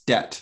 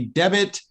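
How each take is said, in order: First: The b is silent in the word. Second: The b is sounded in the word. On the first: The speaker calls it right. "Notice that the B is silent" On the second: The speaker calls it wrong. "We don't say debit"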